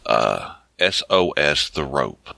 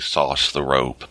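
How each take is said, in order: First: The first word is spelled out as letters. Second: The first word is said as one syllable. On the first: "I don't know how to pronounce the name of the book" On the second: "In my head, I usually say sauce the rope"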